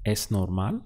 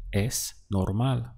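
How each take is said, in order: First: "Es normal?" rising steeply on the last syllable of "normal"; question intonation. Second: "Es normal." slowly, with a pause after "Es" and no final lift; statement intonation. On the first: Teacher models asking it, "Es normal?" rising at the end. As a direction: ask it with a lifted "mal" in "normal". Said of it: "Now ask". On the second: Teacher gives learners the statement, "Es normal." slow, without a question rise. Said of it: "How would you say it's normal?". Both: Shown as a demonstration.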